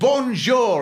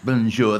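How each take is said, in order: First: The greeting is said strongly and heartily. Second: The greeting is said weakly and feebly. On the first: It earns a polite greeting back. The speaker calls it right. "It's got to be a strong, healthy bonjour" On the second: It comes across as an insult. The speaker calls it wrong. "A weedy bonjour is useless"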